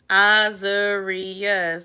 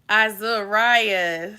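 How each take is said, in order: First: The middle syllable does not sound like 'rye'. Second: The middle syllable sounds like 'rye'. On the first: The speaker calls it wrong. "That's what I said. He said I said it wrong" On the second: The speaker calls it right. "Rye, like rye bread"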